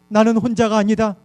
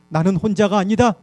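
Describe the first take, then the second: The two takes are said the same way.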